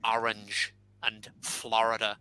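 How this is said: It is said with an East Coast American accent.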